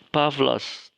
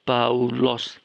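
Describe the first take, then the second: First: The middle is pronounced with a v sound. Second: The middle is pronounced as an au vowel. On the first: The speaker calls it right. "Ya, Pavlos" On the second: The speaker calls it wrong. "itu salah ya. Bukan begitu membacanya"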